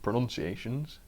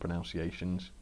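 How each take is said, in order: First: The second syllable sounds like 'nun'. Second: The second syllable sounds like 'noun'. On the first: The speaker calls it right. "as it's supposed to be pronounced" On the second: The speaker calls it wrong. "I'm terrible with the old pronunciations"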